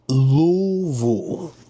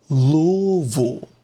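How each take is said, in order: First: It is pronounced the way Kentucky locals say it. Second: It is pronounced the way Kentucky locals say it.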